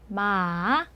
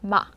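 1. 음높이가 부드럽게 올라갔다가 살짝 내려가요. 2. 음높이가 짧고 딱 끊어져요. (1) "부드럽게 생겼죠? 물음표 모양으로" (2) "이 점을 딱 찍듯이"

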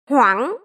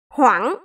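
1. Cao độ đi lên, có một chỗ gãy trong giọng. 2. Cao độ đi lên, có một chỗ gãy trong giọng.

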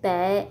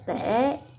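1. Từ này mang thanh nặng, giọng thấp và có tắc thanh hầu. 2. Từ này mang thanh hỏi, giọng thấp và uốn xuống rồi lên. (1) "Dấu nặng" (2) "Rồi dấu hỏi"

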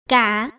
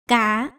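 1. Âm tiết được nói với thanh hỏi. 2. Âm tiết được nói với thanh hỏi.

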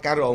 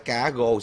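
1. Từ thứ hai bắt đầu bằng âm r. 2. Từ thứ hai bắt đầu bằng âm g. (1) "người miền Bắc nói" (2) "người miền Nam nói"

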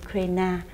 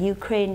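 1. Tên này được đọc theo giọng Việt Nam. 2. Tên này được đọc theo giọng Mỹ. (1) "Việt Nam mình thì lại đọc là Ukraine" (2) "theo Mỹ thì đọc là Ukraine"

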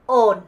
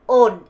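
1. 북부 억양에서는 'n' 소리로 끝납니다. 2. 북부 억양에서는 'n' 소리로 끝납니다.

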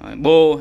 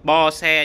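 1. Tên này đọc là một âm tiết. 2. Tên này đọc là hai âm tiết. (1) "Em hay đọc nó Bo" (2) "Bo hay là Bo xe gì đấy"

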